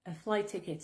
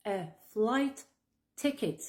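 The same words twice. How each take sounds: First: "flight ticket" run together on one T; fuse the end of flight into ticket; merged T. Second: "a flight ... ticket" with a pause between words; words kept separate. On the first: Teacher shows how to fuse flight ticket, linked T. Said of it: "tu vas fusionner le T à la fin de flight". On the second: Teacher first gives flight ticket word by word, separated. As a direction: say flight and ticket apart, each T sounded. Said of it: "tu vas fusionner le T". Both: Shown as a demonstration.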